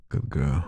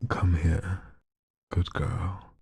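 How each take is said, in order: First: Dropped low, breathy-free purr; sexy voice. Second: A hint of a purr, drawn out; sexy voice. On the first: Pretend. Streamer dares the request line, low and sexy. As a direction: lower the pitch and coo it. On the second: Streamer reads a viewer's request in a mildly sexy voice. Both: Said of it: "in a sexy voice".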